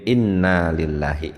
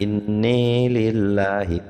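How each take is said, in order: First: The vowel after the double n is an open 'a'. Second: The vowel after the double n leans toward 'e'.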